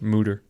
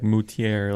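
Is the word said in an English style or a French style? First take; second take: English; French. First: It is said with a plain English-style pronunciation. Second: It is said with a French-style pronunciation. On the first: The speaker calls it right. "It's just mooter" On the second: The speaker calls it wrong. "you want to say like moutier, like a correct French pronunciation"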